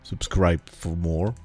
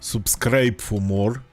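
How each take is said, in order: First: It is said in the speaker's usual accent. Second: It is said in a heavy Russian accent.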